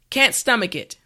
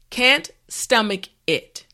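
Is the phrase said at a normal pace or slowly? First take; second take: normal pace; slowly. First: The phrase is said at normal speed. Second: The phrase is said slowly and carefully. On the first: "now let's say it at a normal pace" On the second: "repeat after me"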